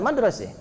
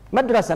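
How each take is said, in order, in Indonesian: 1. Vokal akhir bergeser menjadi bunyi 'e'. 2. Vokal akhir adalah bunyi 'a' terbuka.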